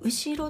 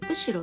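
First: It uses the standard Japanese pitch accent. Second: It uses the Gifu regional pitch accent.

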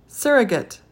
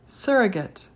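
Both takes have the same delivery.

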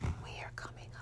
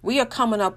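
First: It is said in a soft, whispery voice. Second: It is said in a normal speaking voice.

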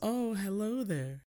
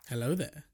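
First: It is said in a put-on woman's voice. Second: It is said in Obi-Wan's voice.

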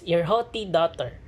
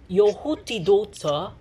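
First: It is said in an American accent. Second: It is said in a British accent.

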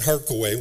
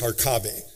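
First: The name is pronounced in an English-sounding way. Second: The name is pronounced in the original Ukrainian way. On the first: The speaker calls it wrong. "which sounds English" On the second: The speaker calls it right. "That was the way you pronounced it"

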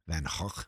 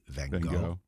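First: The name is said with guttural Dutch sounds. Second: The name is said with anglicized English sounds. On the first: "The Dutch pronunciation is more like ... it has a more guttural thing" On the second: "anglicized, we say Van Gogh"

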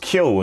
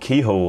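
First: It is said without an h sound inside. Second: It is said with an h sound inside. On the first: The speaker calls it right. "obviously Keo's right" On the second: The speaker calls it wrong. "people who call themselves Kehoe are wrong"

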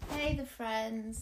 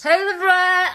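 First: It is said quietly. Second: It is shouted loudly.

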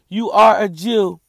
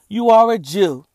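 First: It is read in a lively, sarcastic tone. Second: It is read in a flat, dry tone.

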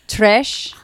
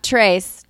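First: The vowel sounds like 'ee' and ends in 'sh'. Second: The vowel sounds like 'ay' and ends in 's'. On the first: The speaker calls it right. "which is Trish" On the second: The speaker calls it wrong. "not Trace"

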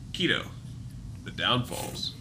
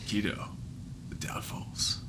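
First: It is said in an ordinary speaking voice. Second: It is said in a dramatic put-on announcer voice.

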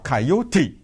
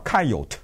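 First: The final e sound is pronounced. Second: The final e sound is silent. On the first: This is the form used in the local region. "他要把那个e 给发出来" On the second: This is the form used in other regions of the country. "他们管这个动物叫coyote"

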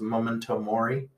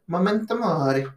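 First: It is said in the speaker's ordinary accent. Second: It is said in a put-on Italian-style accent.

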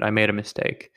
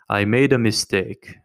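First: It is said in his own plain accent. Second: It is said in a put-on Russian accent.

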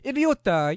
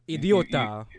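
First: It is said in an exaggerated Italian accent. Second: It is said in a plain, unaccented way. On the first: The speaker calls it right. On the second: The speaker calls it wrong.

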